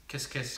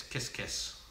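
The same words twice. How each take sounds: First: Said in the usual way. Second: Kiss, kiss breathed soft and voiceless; whispered kisses. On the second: Real, not acted. Sending kisses back to viewer Baby Kate in a whisper. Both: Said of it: "Baby Kate".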